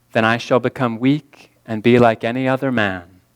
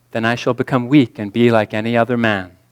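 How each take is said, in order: The two takes are said the same way.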